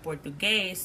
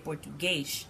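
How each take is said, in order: First: The final s is a plain s sound. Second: The final s is an sh sound. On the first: "instead of Portuguese" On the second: "there's kind of like the sh sound for a lot of the S sounds in that accent"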